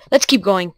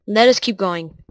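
First: Said in the usual way. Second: Careful let US keep going; stress on us. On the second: Shown as a demonstration.

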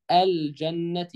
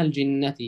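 First: الجنة as "al-jannati", a after ج; wrong vowel. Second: الجنة as "al-jinnati", i after ج; correct kasra. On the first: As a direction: mispronounce الجنة with fatha on ج. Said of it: "خطأ". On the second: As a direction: say الجنة with a clear jin. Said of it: "اسمها الجنة". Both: Shown as a demonstration.

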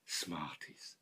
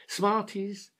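First: "Smarties" breathed in a low whisper. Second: Said in the usual way. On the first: Acted. Old man whispering "Smarties" to himself, dreamy. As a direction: whisper "Smarties" to yourself, savouring it.

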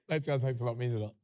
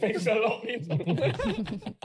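First: Low, quiet, flat thank-you. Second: Slow thanks through laughter; laughing thanks. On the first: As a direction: mumble thanks without feeling. It's the tone. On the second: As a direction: try for sincere but crack up. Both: Real, not acted.

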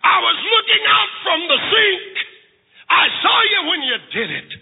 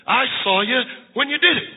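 First: High, ringing, preached-out disclosure; emphatic revelation. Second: Said in the usual way. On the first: Acted. Mother revealing she watched her son, emphatic. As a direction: lift SAW high and let the line fall.

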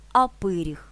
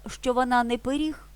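First: Пиріг with the stress on «пи», louder; stress on first syllable. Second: Пиріг with the stress on «ріг»; stress on last syllable. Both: Shown as a demonstration.

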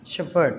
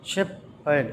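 First: Said in the usual way. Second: Slow "shepherd" in two separate beats; syllable by syllable. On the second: Shown as a demonstration. Teacher counting syllables for children, "shepherd" slowly split in two. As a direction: break "shepherd" into shep and herd with a pause. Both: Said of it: "two syllables".

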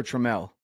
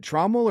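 First: Trammell stressed on the second syllable, "truh-MELL"; alternative pronunciation. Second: Trommel stressed up front, first vowel as "ah"; first pronunciation offered. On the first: Host asking guest about her surname, Trammell stressed at the end. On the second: Host checking the guest's surname, Trommel said with "trom". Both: Shown as a demonstration. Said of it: "Is it Trommel or Trammell?".

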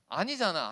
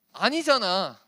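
First: Said in the usual way. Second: 아니잖아 said loud, long falling 아; 아니잖아 punched loud; emphatic insist. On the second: Shown as a demonstration. Insisting to the youth.

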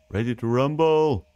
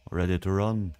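First: Slow, drawn-out fight announcer call; ring announcer. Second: Said in the usual way. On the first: Pretend. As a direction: stretch it like a boxing ring announcer. Wordplay on ready, boxing announcer call.

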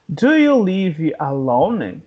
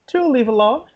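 First: Slow, drawn-out question; slow teaching model. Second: Quick question, pitched higher; quicker natural repeat. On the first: English teacher introducing a question to learners, slowly. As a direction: stretch out "Do you live alone" for learners. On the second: English teacher repeating the question to learners, quicker. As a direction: run "Do you live alone" together briskly. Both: Shown as a demonstration.

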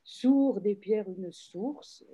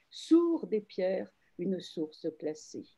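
First: Sourd and source said slowly so they echo each other; echo stressed. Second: Sourd said slowly, leaning on the one syllable; slow recital stressing sourd; slow verse reading. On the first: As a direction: let sourd ring back in source. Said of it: "une espèce d'écho". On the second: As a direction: read the verse slowly, landing hard on sourd. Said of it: "le verbe sourdre". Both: Shown as a demonstration.

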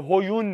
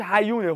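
First: "هیون" with an "o" in the first syllable, hoyun; mistaken pronunciation. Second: "هیونه" with a short "a" in the first syllable, hayune; correct pronunciation. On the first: Teacher showing the mistake to avoid, "هیون" said with ho- at the start. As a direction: say "هیون" as ho-YUN. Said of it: "هیون نیست". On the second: Teacher correcting a friend's pronunciation, "هیونه" said with ha- at the start. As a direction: say "هیونه" as ha-YUN-e. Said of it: "تلفظش هیونه، هیون نیست". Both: Shown as a demonstration.

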